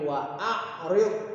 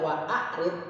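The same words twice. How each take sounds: First: It has a clear pharyngeal ain. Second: It has a plain glottal stop. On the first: The speaker calls it right. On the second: The speaker calls it wrong. "Bukan dibaca"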